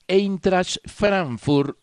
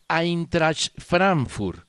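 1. La primera vocal se pronuncia como 'ei'. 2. La primera vocal se pronuncia como 'ai'. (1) "no es Eintracht Frankfurt" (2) "el diptongo EI se pronuncia AI"

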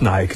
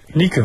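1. Der Name wird englisch ausgesprochen, etwa wie 'Naiki'. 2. Der Name wird deutsch ausgesprochen, etwa wie 'Nee-keh'. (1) "also nicht Nike" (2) "man spricht es auch deutsch aus"

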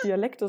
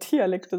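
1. Das Wort beginnt mit einem weichen D-Laut. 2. Das Wort beginnt mit einem harten T-Laut.

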